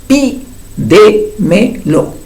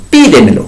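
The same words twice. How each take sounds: First: "pídemelo" very slow and higher, split pí-de-me-lo; syllable by syllable. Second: Said in the usual way. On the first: Shown as a demonstration. Teacher counting to the fourth syllable, "pídemelo" slowly split. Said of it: "cuarta sílaba". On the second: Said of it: "ahí está el acento en la I".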